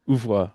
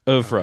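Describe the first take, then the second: First: The final R is weak or dropped. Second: The final R is clearly sounded. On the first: The speaker calls it wrong. "that is how I pronounced it. ... but it's wrong" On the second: The speaker calls it right. "Google says that the R is pronounced, so I'm gonna trust it"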